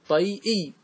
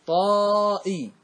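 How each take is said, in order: First: "طيئي" pronounced tay-i, with a y-glide; expected regular form. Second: "طائي" with a very long, high-held "taa". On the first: Teacher showing what the rule predicts, "طيئي" as tay-i. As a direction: say "طيئي" with "tay", then a separate "-i". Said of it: "مفروض نقول". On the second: Teacher showing how the Arabs said it, "طائي" with drawn-out alif. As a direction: stretch the alif in "طائي": taaaa-i. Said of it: "العرب ماذا قالت؟". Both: Shown as a demonstration.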